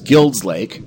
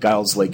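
First: The first word sounds like 'guild'. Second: The first word does not sound like 'guild'.

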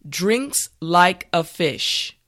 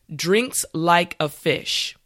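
Both takes have the same delivery.

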